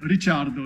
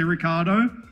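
First: The name is said with an Italian pronunciation. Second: The name is said with an Australian pronunciation. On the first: "But now we're in Italy, you can call me Daniel Ricciardo" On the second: "a more Australian way of saying Ricciardo"

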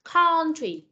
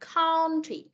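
First: The first vowel sounds like Vietnamese 'on'. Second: The first vowel sounds like Vietnamese 'on'.

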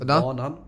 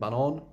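First: It is said with the word melody for track. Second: It is said with the word melody for banana. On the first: The word means track. "but if you pronounce it banan, it means the track" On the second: The word means banana. "Which means banana"

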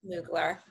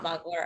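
First: The first vowel is a long 'oo' sound. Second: The first vowel is a short 'uh' sound. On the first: The speaker calls it right. "Moogler, not Mugler, according to this person over here in the corner" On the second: The speaker calls it wrong. "not Mugler"

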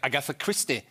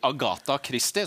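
First: The name is said with English pronunciation. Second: The name is said with Norwegian pronunciation. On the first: The speaker calls it wrong. "Og ikke Agatha Christie" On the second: The speaker calls it right. "Det heter jo det på norsk"

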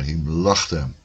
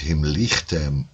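First: The second syllable has an a vowel. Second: The second syllable has an i vowel. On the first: The speaker calls it right. "maar himlachtem" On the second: The speaker calls it wrong. "Dus dat je niet himlichtem gaat zeggen"

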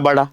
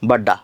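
First: The middle d is single, tongue folded back. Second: The middle d is a long, doubled stop. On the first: This is how it reads with the dot. The speaker calls it right. "परंतु त्याचा actual उच्चार कसा होतो? बडा" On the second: This is how it reads without the dot. The speaker calls it wrong. "हे जर टिंब नसतं तर याला आपण कसं वाचलं असतं? बड्डा बड्डा असं वाचलं असतं"

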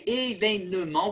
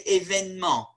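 First: The third vowel is pronounced as a full syllable. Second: The third vowel is dropped from the word. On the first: The speaker calls it wrong. "We don't say événement" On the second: The speaker calls it right. "we now drop that third E"

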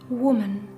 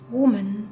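No difference in how they are said.

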